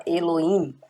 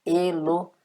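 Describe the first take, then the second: First: "Elohim" run together as "eloin", H dropped; "Elohim" gliding from o straight into i; silent H. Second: "Elohim" broken as "Elo-him", H audible; careful "Elohim" with a breathed H before "im"; clearly sounded H. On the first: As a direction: say "Elohim" without any H. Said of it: "às vezes ele nem é pronunciado". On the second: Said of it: "você pode pronunciar claramente". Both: Shown as a demonstration.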